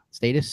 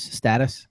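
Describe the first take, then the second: First: Status as STAY-tus; long a. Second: Status as STAT-us; short a. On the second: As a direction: say status with the vowel of "cat". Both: Shown as a demonstration. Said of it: "I would say status".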